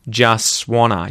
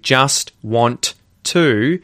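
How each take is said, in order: First: The T sounds drop and the words blend together. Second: Each word is said fully with clear T sounds. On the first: "you'll hear just wanna" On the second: "instead of hearing just want to"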